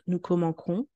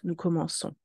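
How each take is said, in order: First: The c before o sounds like k. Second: The c before o sounds like s. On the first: The speaker calls it wrong. "The C with O makes the sound que. We do not want" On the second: The speaker calls it right. "we want ... to keep the sound S"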